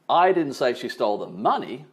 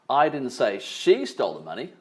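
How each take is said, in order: First: The stress is on "money". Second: The stress is on "she".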